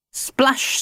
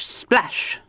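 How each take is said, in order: First: Splash sound. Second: "splash" whispered and falling away. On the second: Mister Grinling splashing as he sinks, whispered. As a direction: let the second "splash" fade into a whisper. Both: Acted. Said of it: "splashed Mister Grinling".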